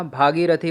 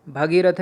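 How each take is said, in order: First: भागीरथी with a long first bhaa; correct long vowel. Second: भगीरथ with a short first bha; wrong form. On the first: Teacher correcting the word, भागीरथी with long bhaa. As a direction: open भागीरथी on a long aa, ending in thii. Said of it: "होता है". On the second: Teacher showing the wrong word, भगीरथ with short bha. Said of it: "नहीं होता". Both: Shown as a demonstration.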